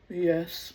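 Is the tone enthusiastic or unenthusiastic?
unenthusiastic. It is said flatly, without enthusiasm.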